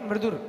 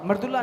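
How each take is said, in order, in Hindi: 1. शब्द का अंत सिर्फ़ 'r' ध्वनि से होता है। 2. शब्द का अंत 'la' ध्वनि से होता है। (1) "ला नहीं रा, हलंत है उसमें" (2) "मृदुला नहीं है"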